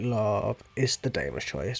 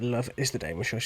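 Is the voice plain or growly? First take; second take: growly; plain. First: It is said in a growly voice. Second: It is said in a plain voice.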